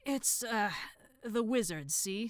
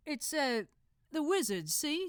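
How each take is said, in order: First: Said in the usual way. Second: High, thick Cockney voice; a cheeky Cockney lad; Cockney accent. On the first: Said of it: "Brother Fingers talks weird now". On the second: Acted. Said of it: "this guy's also got a thick Cockney accent".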